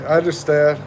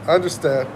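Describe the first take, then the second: No difference in how they are said.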